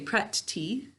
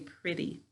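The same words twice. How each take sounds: First: Each sound is said clearly and carefully. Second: It is said in a relaxed everyday way. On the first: It is said this way to help spell it. "how do we say it to spell it? Good, we say pretty" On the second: It is said this way in normal conversation. "when we're talking, we say pretty"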